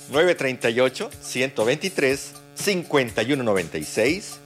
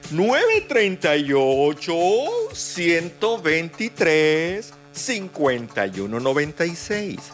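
First: The number is said fast. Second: The number is said slowly.

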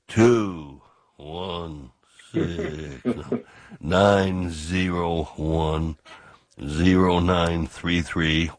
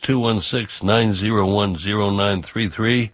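First: The number is said at a slow pace. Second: The number is said at a quick pace.

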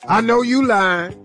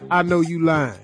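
First: It is acted out in an expressive tone. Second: It is read out flatly.

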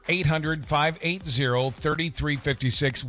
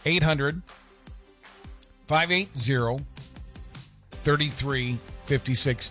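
First: The number is read at a quicker pace. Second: The number is read at a slower pace.

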